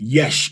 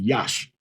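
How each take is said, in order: First: The vowel sounds like the e in bed. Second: The vowel sounds like the a in father. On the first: This is the Tiberian pronunciation. "The Tiberian would be" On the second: This is not the Tiberian pronunciation. "as opposed to"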